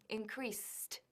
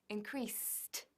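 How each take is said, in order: Both takes have the same delivery.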